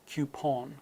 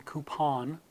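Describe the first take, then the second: First: Coupon as kyoopon, rounded; British coupon. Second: Coupon as koopon; no y after the k in coupon; American coupon. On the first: Teacher giving the British coupon. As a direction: slip a y after the k in coupon. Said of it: "versus coupon". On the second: Teacher giving the American coupon. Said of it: "you'll see coupon". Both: Shown as a demonstration.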